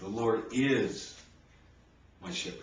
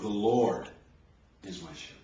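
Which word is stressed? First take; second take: is; Lord. First: The stress is on "is". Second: The stress is on "Lord".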